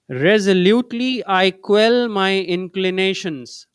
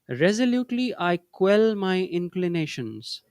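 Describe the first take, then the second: First: It is said in a loud voice. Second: It is said in a normal voice. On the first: "let's affirm together in a loud voice" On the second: "In a normal voice now"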